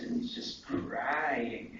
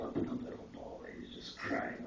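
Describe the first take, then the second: First: Said in the usual way. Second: Hushed, breathless whisper of crying. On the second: Real, not acted. Remembering the little boy crying in the light, whispered. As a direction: drop it to a whisper, softer.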